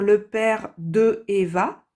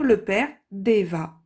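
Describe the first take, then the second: First: The word 'de' is said in full before 'Eva'. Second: The 'd' links straight onto 'Eva' without a vowel. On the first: The speaker calls it wrong. "ça ferait bizarre de dire le père de Eva" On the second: The speaker calls it right. "On va dire le père d'Eva"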